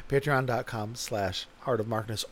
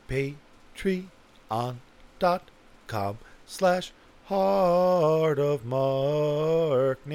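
First: Said in the usual way. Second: Very slow, hugely stretched syllables; drawn-out plug. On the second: Pretend. Podcaster giving the Patreon address, exaggeratedly drawn out. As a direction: spell out the address with theatrical slowness. Mock grand plug, repeated normally.

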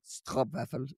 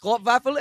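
First: "Stroopwafel" low and soft, deadpan. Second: "Stroopwafel" called out louder, rising; proud stroopwafel. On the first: Mocking his own Dutch answer, low and deadpan. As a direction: drop "Stroopwafel" flat and low as a gag. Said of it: "I just thought that was the funniest". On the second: Answering the fans' request for Dutch, proudly loud. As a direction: announce "Stroopwafel" like a triumph. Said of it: "I would just say". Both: Retold or imitated.

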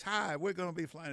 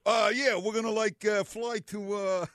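First: Smooth, calm pilot over the intercom; easy captain's cabin announcement; airline pilot announcement. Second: Higher, louder, hesitant pilot voice; unsure pilot announcement. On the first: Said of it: "when the pilot comes on, it's always". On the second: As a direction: fumble the announcement like a clueless pilot. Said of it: "the pilot never comes on and says". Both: Retold or imitated.

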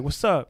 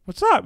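First: Said in the usual way. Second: High, squawky mock parrot voice; mimicking parrot. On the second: Parrot parroting its owner back, high mimic voice. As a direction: echo it as a high-pitched parrot. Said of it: "Paris be like".

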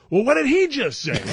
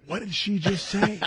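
First: Loud, high-pitched mock disbelief; comically bewildered, voice shooting up; more frantic bafflement. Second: High, slow mock bafflement; comically puzzled, drawn out; baffled. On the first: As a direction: retell it as an exasperated squawk. Retold, escalating bafflement. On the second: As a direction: retell it as a bewildered question, pitched up. Retold bafflement at local accent.

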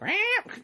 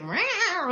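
First: Very high meow; high imitated meow; mock cat meow. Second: High squeaky meow; imitating a meowing cat; mock cat meow. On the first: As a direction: squeak out a meow like the boxed cat. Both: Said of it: "and he's like".

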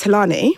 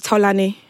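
First: Talani with an anglicized first vowel; westernized pronunciation. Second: Tolani with a rounded, unwesternized first vowel; original pronunciation. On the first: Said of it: "it's westernized Talani". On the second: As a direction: say Tolani the Nigerian way. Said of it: "But it said Tolani". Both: Shown as a demonstration.

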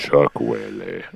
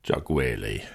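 First: Low, slow DJ voice; FM radio voice. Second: Low, drawn-out name echo; deep radio voice. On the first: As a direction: croon it like a late-night DJ. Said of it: "doing the F M radio voice". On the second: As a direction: boom it like a DJ. Co-host echoes name deep. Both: Pretend.

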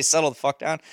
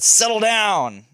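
First: Said in the usual way. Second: Louder, slow and firm settle down; slow stern dad voice, a bit louder; firm dad command. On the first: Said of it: "I didn't say". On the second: Retold or imitated. Dad telling his stepson to calm down, slow and firm. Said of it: "but I said".

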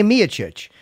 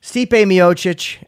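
First: "Miocic" as MEE-uh-chich, drawn out; other person's pronunciation. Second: "Miocic" as mee-OH-chich, drawn out slowly; alternative pronunciation. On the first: Retold or imitated. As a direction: stress the first syllable of "Miocic", slowly. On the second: Shown as a demonstration. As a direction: say "Miocic" slowly, stressing the middle OH. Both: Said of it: "you say Miocic".

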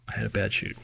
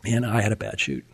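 First: Much softer, letting it sink in; quiet repeat. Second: Said in the usual way. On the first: Real, not acted. Echoing his own words to the listener, hushed and sombre. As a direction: drop to a hushed echo of the line. Repeating the bad chute, sinking in.

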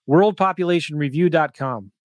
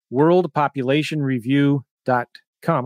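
First: Said in the usual way. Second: Said slowly so they can write it; slow dictation. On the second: Shown as a demonstration. Telling viewers to write the site down, slow dictation. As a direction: spell it out at a writing pace. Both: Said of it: "Write this down".

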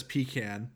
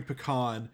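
First: "pecan" as PEE-can; "pecan" with long ee and flat a, PEE-can; spouse's pronunciation. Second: "pecan" as puh-KAHN; "pecan" pronounced puh-KAHN; pronunciation grown up with. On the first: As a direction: say "pecan" stressed up front. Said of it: "someone who says pecan". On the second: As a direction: say "pecan" with stress on the ah syllable. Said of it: "I grew up hearing pecan". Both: Shown as a demonstration.

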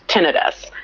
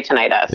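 First: Tinnitus with stress on the first syllable; short-i pronunciation. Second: Tinnitus with stress on the middle syllable; long-i pronunciation. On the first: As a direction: say tinnitus as TIN-ih-tus. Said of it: "always heard it was pronounced tinnitus". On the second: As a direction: say tinnitus as tih-NIGHT-us. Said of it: "some people say tinnitus, like you". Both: Shown as a demonstration.

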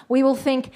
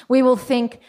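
Both takes have the same delivery.

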